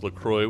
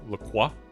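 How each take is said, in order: First: The ending rhymes with enjoy, like croy. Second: The ending is said the French way, like crwah. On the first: The speaker calls it right. "which rhymes with enjoy according to the company" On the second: The speaker calls it wrong. "a common misconception that it's pronounced with a French accent"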